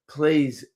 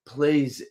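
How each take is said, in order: Both takes have the same delivery.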